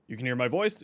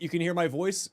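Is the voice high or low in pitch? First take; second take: low; high. First: The voice is low and deep in pitch. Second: The voice is high in pitch. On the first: "it's much deeper pitch" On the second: "it's much higher pitch"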